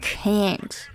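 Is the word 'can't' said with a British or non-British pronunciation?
non-British. It is said with a non-British pronunciation. The speaker calls it wrong. "not can't"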